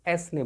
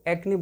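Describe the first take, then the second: First: The c is said as an s sound. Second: The c is said as a k sound. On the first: The speaker calls it wrong. "ना कि एस ने बोला जाता है" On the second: The speaker calls it right. "इसको एक्ने बोला जाता है"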